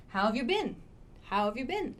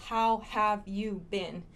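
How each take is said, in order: First: How have you been with have reduced to "of", quick and linked; reduced form. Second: How have you been, every word full and slow; full, slow form. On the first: Teacher showing how native speakers reduce it. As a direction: run How and have together as "how of". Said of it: "Much better". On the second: Teacher showing the unreduced form. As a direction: say each word separately. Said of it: "most native speakers don't say". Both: Shown as a demonstration.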